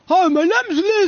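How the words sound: It is said in a deep voice.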